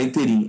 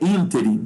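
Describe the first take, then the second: First: The stress is on the last syllable. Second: The stress is on the first syllable. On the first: The speaker calls it wrong. "tá errado, não é interim" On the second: The speaker calls it right. "é ínterim"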